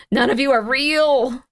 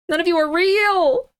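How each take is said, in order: First: Slow, drawn-out accusation; dramatic accusation. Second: High, wailing dramatic accusation; escalated accusation. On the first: Streamer accusing the listings of being fake, dramatic. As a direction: draw it out as a dramatic verdict. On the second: Streamer crying out that the listings are fake, distraught. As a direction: cry it out higher, ending on a rise. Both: Real, not acted.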